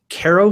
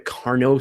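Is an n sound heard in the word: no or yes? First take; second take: no; yes. First: The word is said without an n sound. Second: The word is said with an n sound. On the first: "I don't hear any N" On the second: "there is an N in it"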